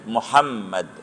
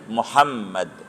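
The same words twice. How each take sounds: First: The middle m sound is doubled and held long. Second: The middle m sound is doubled and held long.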